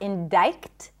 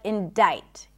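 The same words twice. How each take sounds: First: The C sound is pronounced in the word. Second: The C sound is silent in the word. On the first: The speaker calls it wrong. "not indict" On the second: The speaker calls it right. "The C is silent in the word indict"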